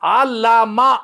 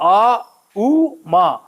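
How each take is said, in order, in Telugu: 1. మధ్య అక్షరం L ధ్వనితో పలకబడుతుంది. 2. మధ్య అక్షరం U అచ్చుతో పలకబడుతుంది. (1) "ఆ లా మా అనకూడదు" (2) "ఆ ఊ మా ఓం అని పలకాలి"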